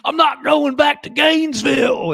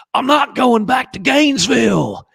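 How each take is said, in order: First: Shouted, high mock Southern accent; bad Southern accent. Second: High, loud, hammed-up bad Southern accent. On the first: Host repeating Keanu's bad Southern line, shouting. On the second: Host mocking Keanu's awful Southern accent, loud. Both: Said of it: "in the worst Southern accent perhaps of all time".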